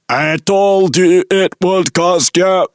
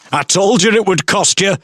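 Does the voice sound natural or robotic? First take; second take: robotic; natural. First: It is said in a mechanical robotic voice. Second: It is said in an ordinary human voice.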